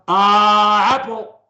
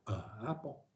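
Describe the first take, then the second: First: It is said loudly. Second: It is said softly.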